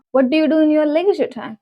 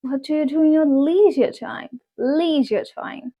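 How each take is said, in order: First: Said in the usual way. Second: "leisure" as LEE-zher; long ee in "leisure", said deliberately; American pronunciation. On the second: Shown as a demonstration. Teacher models leisure time in a question, American pronunciation. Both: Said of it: "twenty words in American accent".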